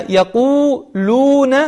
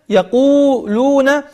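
Both takes have the same delivery.

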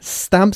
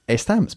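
First: The word begins directly with a hissing s. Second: The word begins with a vowel before the s. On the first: The speaker calls it right. "Empezando con este sonido de la S. Este sonido silbado" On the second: The speaker calls it wrong. "y no"

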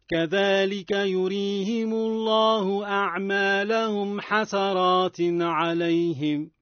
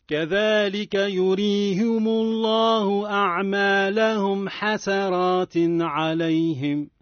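The two takes are said the same way.

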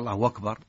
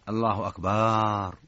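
First: The hu vowel is stretched into a long u. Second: The vowel after the b is drawn out. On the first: The meaning stays the same. "أشبع اللي أتى بواو" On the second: It turns the word into a word for drums. "مد الباء"

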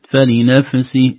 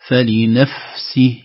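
First: The f is released with a bounce. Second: The f is a soft breathy airflow. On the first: The speaker calls it wrong. "خوفا من قلقلة الفاء" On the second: The speaker calls it right. "لا فلنفسه، نخرج هواء مخرج الفاء بهدوء"

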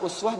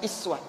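First: The word begins with a rounded 'u' vowel. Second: The word begins with a front 'i' vowel. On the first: This is the common reading of the word. "bisa uswah" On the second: This is the reading in the Qalun or Warsh transmission. "bacaannya bukan uswah tapi iswah"

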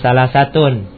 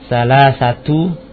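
First: The word ends with an n sound. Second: The word ends with a plain u vowel. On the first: The number is said on its own. The speaker calls it wrong. "bukan dhammatain, bukan salasatun" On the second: The number is followed by the counted noun. The speaker calls it right. "maka bilangannya dibaca dhamma"

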